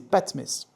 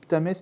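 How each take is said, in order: First: The name begins with 'pat', vowel before t. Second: The name begins with a 'pt' cluster. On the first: The speaker calls it right. "mais c'est Patmès" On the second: The speaker calls it wrong. "je dis Ptamès"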